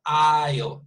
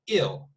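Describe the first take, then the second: First: "I'll" opening on a clear "eye" sound, louder; long I vowel. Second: "ill" with the short vowel of sick. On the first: Teacher showing the vowel at the beginning, "I'll" said as eye-l. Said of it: "it's an I". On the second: Teacher giving the word for enfermo, short-vowelled "ill". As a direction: say "ill" to rhyme with hill, no glide. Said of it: "in the case of enfermo". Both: Shown as a demonstration.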